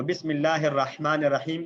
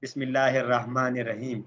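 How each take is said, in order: First: الرحمن and الرحیم with throaty ḥā; correct Arabic reading. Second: الرحمن and الرحیم with a plain light h; common mistaken reading. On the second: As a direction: say الرحیم the Urdu way, h not ḥā. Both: Shown as a demonstration. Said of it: "ہم عام طور پہ کیا پڑھتے ہیں".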